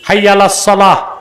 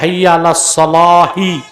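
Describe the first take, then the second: First: The last word stops on the final consonant. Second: The last word ends with an added short i vowel. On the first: The phrase is paused and ended. "ছেড়ে পড়বেন সাকিন দিয়ে" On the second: The phrase is joined to what follows. "মিলায় পড়লে হবে"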